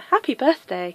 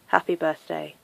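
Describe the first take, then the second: First: It is said in a cheerful, jolly tone. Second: It is said in a serious, flat tone.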